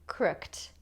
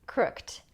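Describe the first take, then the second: First: The word ends in a t sound, one syllable. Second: The same.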